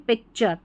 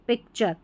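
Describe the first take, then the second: Both takes have the same delivery.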